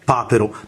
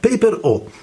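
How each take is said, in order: First: It is said as one Italian word, papero. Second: It is said as two English words, paper O. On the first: The speaker calls it wrong. "non mi prenderete in giro per la mia pronuncia e non vi dirò papero" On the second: The speaker calls it right. "ma Paper O"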